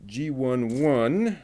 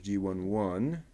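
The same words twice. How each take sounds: First: "G one one" called out louder and slowly; announced part label. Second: Said in the usual way. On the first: Real, not acted. Builder announcing the next part, emphatic. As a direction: call out "G one one" slowly and firmly.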